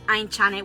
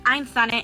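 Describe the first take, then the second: First: The middle consonant is a 'ch' sound. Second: The middle consonant is a 'z'-like sound. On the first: This is how the name should properly be pronounced. "which is the way that my name should be pronounced" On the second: This is the simplified version the family kept. "we decided to just keep it like Ainzane"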